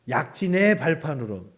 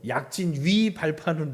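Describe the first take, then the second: First: The particle is pronounced like 'ae'. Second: The particle is pronounced like 'wi'. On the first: "애도 아니고" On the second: "이것도 아니고"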